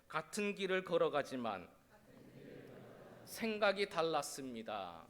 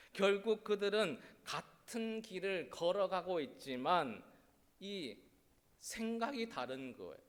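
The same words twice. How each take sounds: First: 같은 길을 걸어가지만 생각이 달랐습니다 said with 같은 stressed, each part falling at its end; call-and-response line with 같은 stressed; phrase for the congregation to repeat. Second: Said in the usual way. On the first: Shown as a demonstration. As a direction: lead it line by line so they can echo. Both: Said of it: "따라해 주세요".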